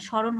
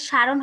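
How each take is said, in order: First: স্মরণ as "sho-ron", m silent; rounded first vowel in স্মরণ; correct pronunciation. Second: সারণ with an open "aa" in the first syllable; misspelt pronunciation. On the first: Teacher correcting the misprint for students, স্মরণ said "sho-ron". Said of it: "স্মরণ হবে". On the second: Teacher showing students the misprint, সারণ said with long aa. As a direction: say সারণ as "sha-ron". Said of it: "সারণ হবে না". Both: Shown as a demonstration.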